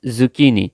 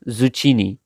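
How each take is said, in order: First: Zucchini with a hard k, "zoo-KEE-nee"; correct pronunciation. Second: Zucchini with a ch, "zoo-CHEE-nee"; wrong pronunciation. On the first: English teacher correcting a common mistake, zucchini said properly with a k. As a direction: slowly say zucchini with k, never ch. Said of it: "It's zucchini". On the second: English teacher warning learners off a mistake, zucchini mispronounced with ch. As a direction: slowly say zucchini with ch instead of k. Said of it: "not zucchini". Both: Shown as a demonstration.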